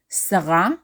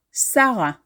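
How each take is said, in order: First: Sarah as "sa-RA"; last syllable stressed. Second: Sarah as "SA-ra"; first syllable stressed. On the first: Teacher offering the first option for your name, Sarah as "sa-RA". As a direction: Hebrew Sarah with the weight on the end, "sa-RA". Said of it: "depending on what syllable is stressed". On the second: Teacher offering the common option for your name, Sarah as "SA-ra". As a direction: Hebrew Sarah with the weight up front, "SA-ra". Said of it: "also pronounce the second to last syllable". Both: Shown as a demonstration.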